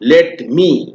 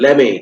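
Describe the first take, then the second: First: The two words are said fully and separately. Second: The two words are run together as one. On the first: The speaker calls it wrong. "ऐसे नहीं बोलना" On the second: The speaker calls it right. "कैसे बोलना है, लेमे"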